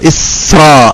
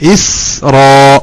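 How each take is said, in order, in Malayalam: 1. s-ഉം r-ഉം ഒന്നിച്ചു ചേർന്ന് ഒരു കൂട്ടമാകുന്നു. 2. s-ഉം r-ഉം രണ്ടു വ്യത്യസ്ത അക്ഷരങ്ങളിലാണ്.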